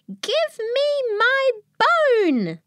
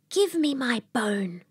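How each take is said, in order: First: It is said loudest of all. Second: It is said softly.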